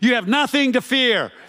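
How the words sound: It is said with bold attitude.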